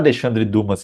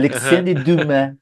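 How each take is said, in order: First: Dumas is said with a Brazilian Portuguese pronunciation. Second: Dumas is said with a French pronunciation. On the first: This is the habitual way the name gets said. The speaker calls it wrong. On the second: This is how the name is actually said. The speaker calls it right.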